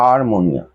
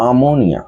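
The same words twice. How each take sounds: First: আরমোনিয়া with the r sounded, ar-mo-ni-a; আরমোনিয়া as it is spelled, r voiced; written form with r. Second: আমোনিয়া said slowly with no r, a-mo-ni-a; slow and clear, আমোনিয়া without the r; the chanting form আমোনিয়া, r dropped; silent r. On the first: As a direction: show the written আরমোনিয়া, r included. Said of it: "আর লিখবার সময়". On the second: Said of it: "উচ্চারণের সময় আমোনিয়া". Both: Shown as a demonstration.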